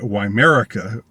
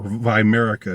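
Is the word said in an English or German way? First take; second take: English; German. First: It is said with an English pronunciation. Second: It is said with a German pronunciation.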